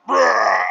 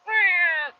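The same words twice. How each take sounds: First: Big, loud lion roar; Simba. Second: High, thin lion cub mew; Simba. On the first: Cub trying again with dad behind him, loud roar. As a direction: let out a sudden full roar, imitated. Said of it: "he tries it again, he goes". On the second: Cub trying his first roar, feeble high squeak. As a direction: attempt a roar and manage only a squeak. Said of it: "whenever Simba's like". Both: Retold or imitated.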